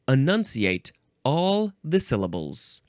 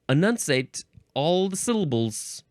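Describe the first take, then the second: First: Every syllable is pronounced clearly. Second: The syllables are slurred together and unclear. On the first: The speaker calls it right. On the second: The speaker calls it wrong.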